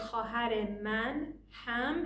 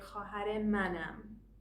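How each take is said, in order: First: The last two words are said separately. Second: The last two words are run together.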